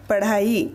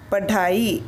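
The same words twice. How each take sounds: First: पढ़ाई with a flapped ढ़; correct pronunciation. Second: पढ़ाई with a hard stop ढ instead of ढ़; wrong pronunciation. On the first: Teacher to students, modelling the correct flap. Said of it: "पढ़ाई इस शब्द में से". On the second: Teacher to students, demoing the wrong hard sound. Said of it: "तो शब्द का उच्चारण कैसे होगा". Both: Shown as a demonstration.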